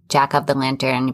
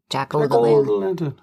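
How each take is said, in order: First: The word 'of' is said in full. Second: The word 'of' is reduced to 'o'. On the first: "but they wouldn't say of" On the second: "They'd be like"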